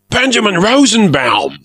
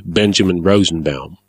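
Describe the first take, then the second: First: High, loud delighted cry; excited cry. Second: Said in the usual way. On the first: A narrator's reading. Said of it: "the pirate cried". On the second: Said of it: "I said truthfully".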